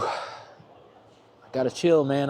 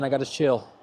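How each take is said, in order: First: Chill stretched long, rising; slow drawn chill with a rise. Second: Said in the usual way. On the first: Shown as a demonstration. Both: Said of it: "I don't mean I need to chill out".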